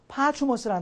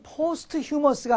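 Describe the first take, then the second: First: The middle is said as a 'ch' sound. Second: The middle is said as 'st' then 'h'. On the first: The speaker calls it right. "파추머스라는 단어인데요" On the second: The speaker calls it wrong. "이 발음이 포스트 휴머스가 아니고"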